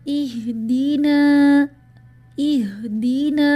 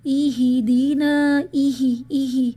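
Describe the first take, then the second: First: Slow loud recited اہدینا with a silent ha; correct recitation. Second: اہدینا read with a zer under the ha, ihidina; imitating the mistake. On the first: Shown as a demonstration. Teacher recites the correct verse, loud and slow. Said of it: "ایک اور example". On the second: Teacher imitates women reciting wrongly, loud and slow. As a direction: stress the ایہی with a kasra. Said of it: "اکثر خواتین سناتے ہوئے".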